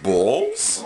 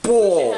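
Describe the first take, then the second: First: It is said as a questioning word. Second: It is said as a loud exclamation.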